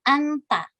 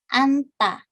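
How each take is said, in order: First: The n runs straight into the t sound. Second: The same.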